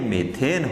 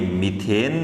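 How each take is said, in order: First: The first vowel sounds like 'eh'. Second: The first vowel sounds like 'ee'. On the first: The speaker calls it right. "ये मेथेन होता है" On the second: The speaker calls it wrong. "ये मीथेन नहीं होता है"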